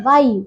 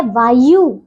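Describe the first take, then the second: First: Said in the usual way. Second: वायु with a long final "oo"; mispronounced वायु. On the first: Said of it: "ये है वायु". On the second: Shown as a demonstration. Teacher reads pupils the misspelling, long "yoo" in वायु. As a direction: stretch the end of वायु into "vaa-yoo". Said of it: "ये है अशुद्ध और ये है शुद्ध".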